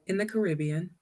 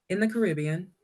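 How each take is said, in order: The two takes are said the same way.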